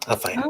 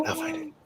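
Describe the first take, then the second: First: Said in the usual way. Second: High silly voice. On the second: Pretend. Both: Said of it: "repeated in new voices".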